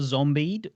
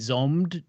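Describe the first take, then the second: First: The title is said with two syllables. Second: The title is said with one syllable. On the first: "I think it's Zombied" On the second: "or possibly Zombed, depending on who's pronouncing it"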